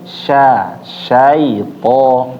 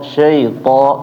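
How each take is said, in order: First: The first syllable is a full, clear 'sha'. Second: The first syllable sounds like 'she'. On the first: The speaker calls it right. "tapi sya syaito" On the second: The speaker calls it wrong. "Jangan syaito syaito"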